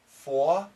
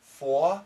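First: The R sound is dropped. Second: The same.

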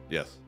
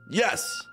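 First: It is said flatly, without enthusiasm. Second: It is said with more enthusiasm.

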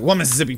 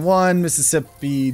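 First: The syllables are run together less distinctly. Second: Every syllable is pronounced very distinctly. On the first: The speaker calls it right. "I should be like" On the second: The speaker calls it wrong. "You enunciate the syllables too much on the Mississippis. So instead of going"

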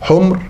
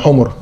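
First: The m carries no vowel: humr. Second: Both consonants carry a u vowel: humur. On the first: It is the plural of red. The speaker calls it right. "حمر بتسكين الميم" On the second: It is the plural of donkey. The speaker calls it wrong. "بالضم يعني حمر"

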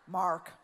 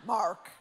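First: It is said with an American accent. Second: It is said with an American accent.

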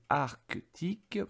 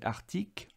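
First: The k sound before the t is clearly heard. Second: The k sound before the t is dropped. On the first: This is the careful, full pronunciation. "je fais exprès de bien prononcer Arctique pour que ... tu entendes bien le C" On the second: This is how most people casually say it. "tout le monde dit Arctique"

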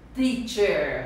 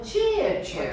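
First: It starts with a plain, lightly puffed t sound. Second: It starts with a ch-like sound instead. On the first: The speaker calls it right. "o T tem som do paulista" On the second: The speaker calls it wrong. "Eu não quero ver ninguém chegar na rua"

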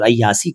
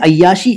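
First: The middle consonant is an s sound. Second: The middle consonant is an sh sound. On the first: The speaker calls it wrong. "अय्यास और अय्यासी कह देते हैं" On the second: The speaker calls it right. "सही उच्चारण मैं आपको बता रहा हूँ"

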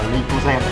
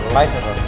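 First: The word is pronounced with Vietnamese sounds. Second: The word is pronounced with English sounds. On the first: "mà tiếng Việt đọc là glycogen" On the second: "Tiếng Anh đọc là glycogen"

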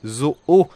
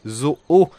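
First: It is said with a French 'o' vowel. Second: It is said with a French 'o' vowel.

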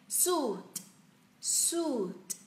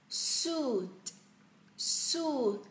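The two takes are said the same way.

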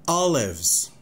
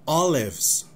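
The two takes are said the same way.

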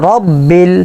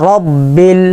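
No difference in how they are said.

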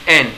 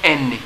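First: The letter is said as a short en. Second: The letter ends with an added ee vowel. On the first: The speaker calls it right. "it's N" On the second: The speaker calls it wrong. "It's not any"

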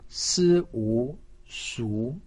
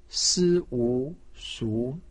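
First: The pitch rises from middle to high. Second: The same.

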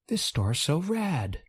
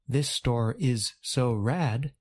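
First: The word 'is' is reduced and joined onto 'store'. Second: The word 'is' is said as a separate full word. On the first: "the speaker says something closer to" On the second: "Instead of saying"

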